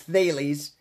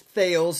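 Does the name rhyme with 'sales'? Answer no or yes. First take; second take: no; yes. First: The name does not rhyme with sales. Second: The name rhymes with the word sales. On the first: The speaker calls it right. "It's not. It's Thales" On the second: The speaker calls it wrong. "They all think it's Thales, like Mike Tyson talking about sales"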